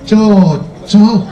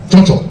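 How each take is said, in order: First: It is said sarcastically, mocking a bad match. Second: It is said sincerely, meaning a good fit.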